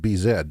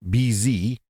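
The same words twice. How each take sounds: First: The Z is said as 'zed', Canadian style. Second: The Z is said as 'zee', American style.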